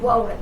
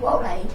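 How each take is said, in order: First: The name begins with an R sound. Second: The name begins with a W sound. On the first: The speaker calls it right. "Her name is Debbie Rowland" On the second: The speaker calls it wrong. "I know it's not correct when I say it this way"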